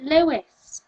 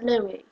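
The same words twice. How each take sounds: First: "Lewis" with a clear final S; American pronunciation. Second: "Louis" as LOO-ee, silent S; British pronunciation. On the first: Showing how Americans say it, "Lewis" with final S. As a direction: finish "Lewis" on a hissed S. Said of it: "Apparently Americans pronounce it". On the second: Explaining the British name, "Louis" with silent S. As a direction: end "Louis" on an ee sound. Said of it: "It's like a British thing". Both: Shown as a demonstration.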